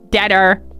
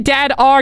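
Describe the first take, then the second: First: The two words blur quickly into one word. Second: The two words are said separately, with a break. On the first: The speaker calls it wrong. "I said it quickly" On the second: The speaker calls it right. "I was meant to say"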